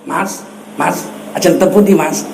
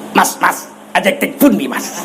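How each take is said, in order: First: Soft, polite Javanese accent, lower. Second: Javanese said in a blunt Batak accent. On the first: Preacher demonstrates Javanese spoken properly, lower and soft Javanese accent. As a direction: greet like a courteous Javanese villager, low and gentle. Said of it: "pakai logat Jawa". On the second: Preacher shows Javanese spoken in a Batak accent, comic clash. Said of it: "Coba bahasa Jawa, logat Batak". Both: Shown as a demonstration.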